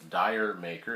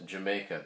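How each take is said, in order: First: It is said like 'dire maker'. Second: It is said like 'Jamaica'. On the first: The speaker calls it wrong. "they might pronounce it as Dire Maker" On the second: The speaker calls it right. "pronounced as Jamaica"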